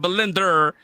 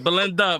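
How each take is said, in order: First: The name ends with an added R sound. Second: The name ends in a plain vowel sound. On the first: Someone else said the name wrongly. The speaker calls it wrong. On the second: The name's owner says it properly. The speaker calls it right.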